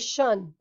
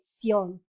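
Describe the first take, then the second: First: The ending is blended into one 'shun' syllable. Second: The ending is split into two separate syllables. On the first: The speaker calls it wrong. "we don't say shun in Spanish" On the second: The speaker calls it right. "We have to separate sion"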